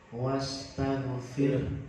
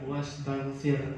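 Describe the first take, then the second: First: The word ends with an audible breathy h. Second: The word ends without an audible breathy h. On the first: The speaker calls it right. "ada haknya keluar di situ" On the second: The speaker calls it wrong. "Jadi bacaannya bukan wastaghfir"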